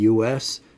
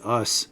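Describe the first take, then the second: First: It is said as two separate letters. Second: It is said as one short word. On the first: It means the United States. The speaker calls it right. "talking about the U S" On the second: It means the pronoun us. The speaker calls it wrong. "they'll pronounce it us"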